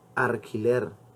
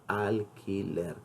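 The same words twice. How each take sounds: First: An R sound comes before the 'q'. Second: An L sound comes before the 'q'. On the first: The speaker calls it wrong. "Ustedes probablemente han dicho alquiler" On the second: The speaker calls it right. "lo correcto es decir alquiler"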